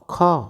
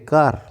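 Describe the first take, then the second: First: Said with an aspirated k and no final r. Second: Said in an Indian accent with the r sounded. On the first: "अगर इसका सही pronunciation करें तो" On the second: "देखो हम Indian क्या बोलते हैं इसे?"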